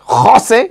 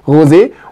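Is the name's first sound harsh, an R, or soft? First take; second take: harsh; R. First: The name starts with a harsh, throaty sound. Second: The name starts with an R sound. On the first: "so rausgerotzt" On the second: "Die München sagen immer Rosé"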